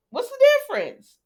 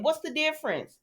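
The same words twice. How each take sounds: First: Louder and higher repeat, driving the point; emphatic repeat. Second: Said in the usual way. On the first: Real, not acted. Vlogger pressing her point on Hope, loud emphatic repeat. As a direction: hit the question again, much higher.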